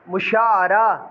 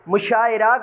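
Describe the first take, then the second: First: The vowel before the last syllable is a. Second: The vowel before the last syllable is i. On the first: The speaker calls it right. "इसी तर्ज पे पढ़ने हैं" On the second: The speaker calls it wrong. "गलत है"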